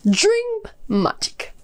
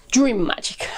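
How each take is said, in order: First: High and slowly drawn out; dramatic announcement. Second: Said in the usual way. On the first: Acted. Reviewer teasing the book's magic system, drawn out high. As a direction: savor each word like a grand reveal.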